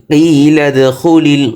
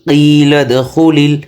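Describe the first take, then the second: Both takes have the same delivery.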